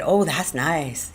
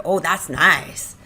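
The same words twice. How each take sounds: First: Slow, contented murmur of delight; simple pleasure. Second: Slower, louder drawn-out delight; growing pleasure. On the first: Lenny stroking her hair, slow contentment. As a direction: savour it slowly. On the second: Lenny stroking harder, mounting delight. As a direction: stretch it out, more carried away. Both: Acted.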